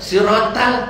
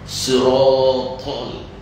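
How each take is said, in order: First: The first s sound is plain and light. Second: The first s sound is heavy and emphatic. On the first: The speaker calls it wrong. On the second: The speaker calls it right.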